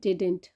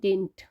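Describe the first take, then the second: First: The middle d sound is clearly pronounced. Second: The middle d sound is dropped entirely. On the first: "did not का contraction हुआ है" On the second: "American English में इसे pronounce करते हैं"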